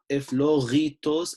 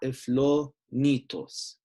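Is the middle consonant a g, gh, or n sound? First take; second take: gh; n. First: The middle consonant is a throaty gh sound. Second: The middle consonant is an n sound. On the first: "not a gha" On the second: "not a n"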